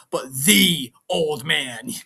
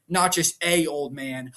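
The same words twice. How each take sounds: First: "the" stretched slow as "thee"; stress on THE. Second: The article "a" said as a full "ay"; stress on A. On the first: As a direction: draw out "the" for a big reveal. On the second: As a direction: lean on "a" to set up a contrast. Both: Real, not acted. Contrasts a with the.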